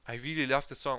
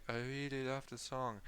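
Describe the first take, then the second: First: It is said with lively emotion. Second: It is said flatly, without emotion.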